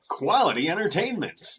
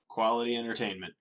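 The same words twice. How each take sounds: First: It is said with exaggerated, forced enthusiasm. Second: It is said flatly, with little enthusiasm. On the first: The speaker was paid to say it. "Now I'm just trying too hard" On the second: The speaker seems generally down. "I'm not even convincing myself with that tone of voice"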